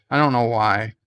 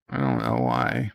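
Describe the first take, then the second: First: Said in the usual way. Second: I don't know why dropped very low and soft; mock deep voice. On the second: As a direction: rumble it like a goofy giant. Repeats line in a silly voice.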